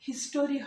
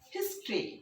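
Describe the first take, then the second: First: The middle vowel is fully pronounced. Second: The middle vowel is dropped entirely. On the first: The speaker calls it wrong. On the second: The speaker calls it right.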